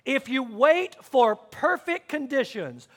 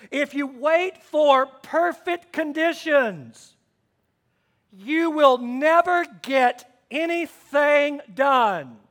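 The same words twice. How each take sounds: First: Said in the usual way. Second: Slow, loud, weighty reading of the verse; slow emphatic quote. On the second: Shown as a demonstration. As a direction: lean on every word of the scripture.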